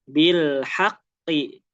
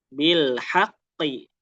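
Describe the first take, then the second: No difference in how they are said.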